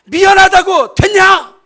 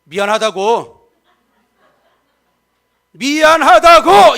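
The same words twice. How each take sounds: First: Much higher and louder, a yelled apology; an exasperated spouse yelling sorry; furious shouted sorry. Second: Sorry snapped, then shouted much louder and slower; a rising angry sorry that means nothing; grudging angry sorry. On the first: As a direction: shout it like a fight. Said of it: "그래도 더 화가 나-, 안 풀리면". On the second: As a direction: spit out the apology in a temper. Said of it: "나 안 풀리면". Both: Shown as a demonstration.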